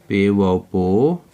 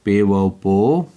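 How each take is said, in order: Both takes have the same delivery.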